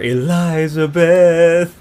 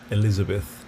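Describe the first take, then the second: First: The name is said the singer's own way. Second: The name is said the common English way.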